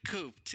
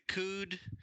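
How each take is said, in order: First: The word is said with a P sound. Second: The word is said without a P sound. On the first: The speaker calls it wrong. "I pronounce it cooped" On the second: The speaker calls it right. "Is it cooed?"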